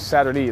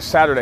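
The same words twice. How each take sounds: First: The last syllable ends with an 'ee' sound. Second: The last syllable ends with an 'ay' sound. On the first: "you always said it with the E instead of a Y" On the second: "it was never Saturday"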